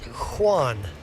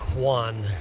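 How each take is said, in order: First: The name begins with an H sound. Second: The name begins with a K sound. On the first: The speaker calls it right. "starts with the sound of H" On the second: The speaker calls it wrong. "My name does not start with a sound of Q"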